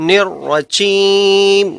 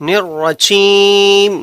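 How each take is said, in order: Both takes have the same delivery.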